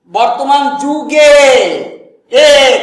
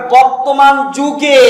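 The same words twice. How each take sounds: First: "যুগে" with its final এ stretched long and loud; stressed final এ. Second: Said in the usual way. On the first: Shown as a demonstration. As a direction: draw out the এ ending of "যুগে", louder. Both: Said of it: "কালকে বললাম না এ".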